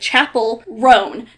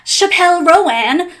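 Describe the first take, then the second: First: The last name has one syllable. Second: The last name has two syllables. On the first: The speaker calls it right. "You say it [name]" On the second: The speaker calls it wrong.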